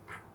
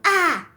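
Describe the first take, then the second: First: It is said very quietly. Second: It is said very loudly.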